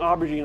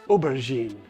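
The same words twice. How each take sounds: First: The first syllable sounds like 'Auburn'. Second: The first syllable sounds like French 'oh'. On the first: The speaker calls it wrong. "I've been saying aubergine all this time because probably because I'm in, near Alabama and Auburn plays" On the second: The speaker calls it right. "but it's aubergine"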